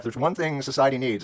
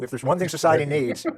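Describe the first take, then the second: First: It is said in a flat, unconvinced tone. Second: It is said in a cheerful, enthusiastic tone. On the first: The speaker doubts the idea. "you don't sound all that convinced" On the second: The speaker welcomes the idea.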